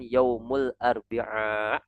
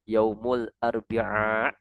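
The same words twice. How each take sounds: Both takes have the same delivery.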